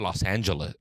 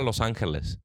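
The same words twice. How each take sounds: First: It is pronounced with English sounds. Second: It is pronounced with Spanish sounds. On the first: The speaker calls it wrong. "I'm not gonna be like, hey, ma I'm going to Los Angeles" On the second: The speaker calls it right. "If I'm talking to my mom, I'm gonna be like, voy a ir a Los Angeles"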